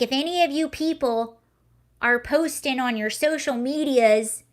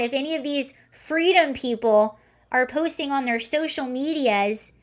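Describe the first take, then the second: First: Retold quote in a light Southern accent. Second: Said in the usual way. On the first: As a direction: put on a slight Southern twang. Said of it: "I'm doing a Southern accent". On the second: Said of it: "But she was basically saying".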